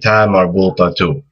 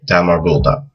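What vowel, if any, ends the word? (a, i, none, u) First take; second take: u; none. First: The word ends with a final u vowel. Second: The word ends with no final vowel. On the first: Another word follows without a stop. "if you're saying another word after it, and you want to keep going" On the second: The speaker stops after this word. "if you just stop at the end of the word and you don't continue"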